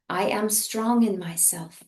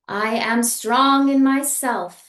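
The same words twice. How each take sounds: First: It is spoken softly in a quiet voice. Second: It is spoken loudly in a full voice. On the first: "a bit more soft in a speaking voice" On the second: "first loudly in a speaking voice"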